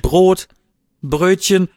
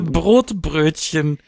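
First: A clear pause separates the two words. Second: The two words run together without a pause. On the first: It lists two separate things. The speaker calls it right. "Da war ein Komma dazwischen" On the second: It names one compound thing. The speaker calls it wrong. "Was ist denn ein Brotbrötchen?"

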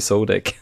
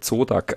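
First: The name is pronounced with English sounds. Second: The name is pronounced with German sounds. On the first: This is the version the speaker avoids. "als wie Zodak" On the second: This is the version the speaker prefers. "Ich sag auch lieber Zodak"

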